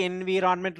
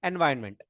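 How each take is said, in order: First: "environment" read as it is spelt, en-vee-RON-ment; spelling pronunciation. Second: "environment" pronounced en-VYN-ment; correct environment. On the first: Teacher reads the spelling to the class, spelling pronunciation. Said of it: "Spelling may be environment looking like". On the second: Teacher tells students how to pronounce it, correct environment. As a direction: merge the middle of "environment" into "vyn", dropping "ron". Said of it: "we need to pronounce it as". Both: Shown as a demonstration.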